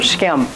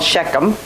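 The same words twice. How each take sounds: First: The name is said as one syllable. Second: The name is said with two syllables. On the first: This is the original way the name is said. The speaker calls it right. "It's just one syllable word" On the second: This is how an English speaker says it. The speaker calls it wrong. "That makes you an English speaker"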